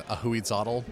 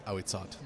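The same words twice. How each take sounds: First: Ahuizotl said slowly as ah-hoo-eed-ZOT-ul; spelling-based pronunciation. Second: Ahuizot said ow-ee-SOT, no final l; corrected pronunciation. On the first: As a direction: sound out Ahuizotl with an h and a final tl syllable. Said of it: "I was saying". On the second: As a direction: say Ahuizot with a silent h, stopping on the t. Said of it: "Apparently, it's pronounced". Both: Shown as a demonstration.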